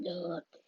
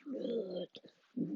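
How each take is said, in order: First: Said in the usual way. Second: Whispered. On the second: Real, not acted.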